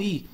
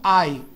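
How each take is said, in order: First: I as a plain "ee"; short Portuguese I. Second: I as the glide "eye"; long English I. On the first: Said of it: "eles não pronunciam como". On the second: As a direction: open the I out into "ai". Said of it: "eles pronunciam como". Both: Shown as a demonstration.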